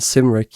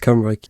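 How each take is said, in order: First: The name is read out the way it looks. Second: The name is said with its actual pronunciation. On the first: The speaker calls it wrong. "it's spelled Cymric" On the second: The speaker calls it right. "but it's pronounced Cymric"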